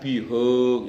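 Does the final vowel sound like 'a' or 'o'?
o. The final vowel is a rounded o sound.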